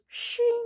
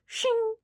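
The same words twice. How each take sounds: First: Long, high, thin "shiiing"; drawn-out metallic ring, very high; dragged knife sound. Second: High-pitched blade "shing"; quick ringing sound of a slasher grabbing a knife; imitated metallic shing; horror-movie knife grab. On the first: Retold or imitated. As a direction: stretch out shing like a blade scraping along a table. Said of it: "tries dragging it across the table". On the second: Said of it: "the slasher grabs it and goes".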